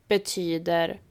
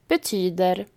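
Both takes have the same delivery.

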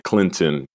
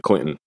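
First: It is pronounced the way outsiders say it. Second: It is pronounced the way locals say it. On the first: This is not how people from the town say it. The speaker calls it wrong. "you never say Clinton" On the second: This is how people from the town say it. The speaker calls it right. "you always say Clinton"

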